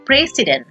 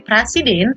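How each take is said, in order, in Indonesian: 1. Vokal pertama bunyinya seperti 'e'. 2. Vokal pertama bunyinya 'a' biasa. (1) "tetapi membacanya menjadi presiden" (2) "Kita nggak membacanya menjadi presiden"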